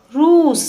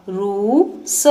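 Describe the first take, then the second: First: रूस with the ऊ held long and much higher. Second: Said in the usual way. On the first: Shown as a demonstration. Teacher repeating रूस for pupils, long and high. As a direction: sing out the ऊ of रूस. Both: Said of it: "लंबे समय तक और ऊंचे स्वर में पढ़ा".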